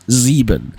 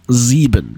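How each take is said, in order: First: The first vowel is long. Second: The first vowel is long.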